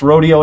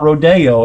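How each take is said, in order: First: It is said the way Texans say it. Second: It is said the way Californians say it. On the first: This is the local Texan usage. The speaker calls it right. "They know it's rodeo" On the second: This is how newcomers from California say it. The speaker calls it wrong. "not rodeo if they come from California"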